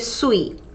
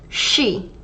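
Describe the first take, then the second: First: It starts with a plain s sound. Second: It starts with an sh sound. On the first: The speaker calls it wrong. "We don't say sui" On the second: The speaker calls it right. "It's she, ... It's that sound, shh"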